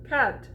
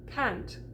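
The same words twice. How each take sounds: First: "Can't" with a broad proper "ah", no nasal; posh can't. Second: "Can't" with the vowel put in the nose; nasal can't. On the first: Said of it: "Suddenly I'm very, very fine and very proper". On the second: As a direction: say "Can't" nasally, her own American way. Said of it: "I say can't". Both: Shown as a demonstration.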